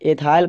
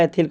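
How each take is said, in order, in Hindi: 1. इसे अंग्रेज़ी शैली के 'eye' स्वर के साथ बोला जाता है। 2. इसे हिंदी शैली के छोटे 'i' स्वर के साथ बोला जाता है। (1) "अंग्रेजी में एथाइल लिखा होता है" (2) "हिंदी में उसको एथिल बोला जाता है"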